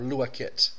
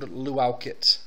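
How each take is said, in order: First: The first part sounds like 'loo-ah'. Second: The first part sounds like 'loo-ow'. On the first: The speaker calls it right. "It's not really a luau, it's a lua" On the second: The speaker calls it wrong. "I don't know why I want to call it a luau"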